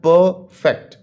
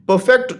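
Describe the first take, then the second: First: perfect broken as पर, fact with a clear pause; split into syllables. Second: Said in the usual way. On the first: Shown as a demonstration. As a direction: say perfect in two separate beats: पर... fact. (Perfect को दो हिस्सों में तोड़कर: पर... fact) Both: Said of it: "टू syllable word है".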